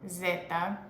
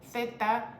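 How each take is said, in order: First: The word begins with a buzzing z sound. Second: The word begins with a soft th sound. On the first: The speaker calls it wrong. "it's not zeta" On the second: The speaker calls it right. "it's th, like T H in English"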